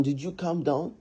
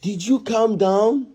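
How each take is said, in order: First: Softer, falling-away challenge with a final rise; pointed question. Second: Slow, higher challenge, rising at the end; pointed demand. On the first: Husband scolding wife over her temper, softer pointed question. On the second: Husband confronting wife over her temper, slow pointed demand. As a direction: draw the question out, demanding an answer. Repeats question in a quarrel. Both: Acted.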